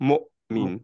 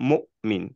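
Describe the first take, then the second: The two takes are said the same way.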